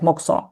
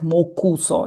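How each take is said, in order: First: The vowel between k and s is dropped. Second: The vowel between k and s is pronounced. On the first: "but we pronounce it like mokso" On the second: "If to uh, spell it, uh, it's like mokuso"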